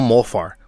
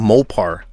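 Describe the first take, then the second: First: The middle consonant is an f sound. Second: The middle consonant is a p sound. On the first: The speaker calls it wrong. "no Mofar" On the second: The speaker calls it right. "se pronuncia Mopar"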